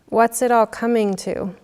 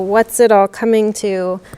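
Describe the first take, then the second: First: It sounds open and genuinely curious. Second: It sounds weary and exasperated. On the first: It is an open question inviting attention to the moment. The speaker calls it right. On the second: The world seems to be falling apart. The speaker calls it wrong.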